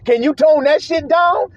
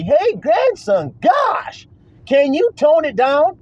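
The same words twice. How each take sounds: First: Said in the usual way. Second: Slow, high, put-on complaining voice; drawn-out high mock whine; mocking whiny critic. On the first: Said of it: "Can you tone down your". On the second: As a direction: mimic the critic pleading, up high.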